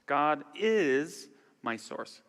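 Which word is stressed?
is. The stress falls on the word is. "emphasize each word"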